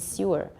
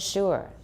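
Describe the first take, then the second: First: It starts with an s and a y glide. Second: It starts with a sh sound. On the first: This is the old pronunciation. "很久以前是 sewer" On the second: This is the modern pronunciation. "but now it's sugar and sure"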